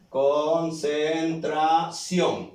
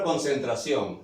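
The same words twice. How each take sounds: First: "Concentración" very slow, syllable by syllable, stress on the final "ción"; acento en la última sílaba. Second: Said in the usual way. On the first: Shown as a demonstration. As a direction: draw out each syllable of "Concentración" and land on "ción". ("Concentración" muy lento, sílaba por sílaba, con fuerza en "ción") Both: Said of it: "Acento en la última sílaba".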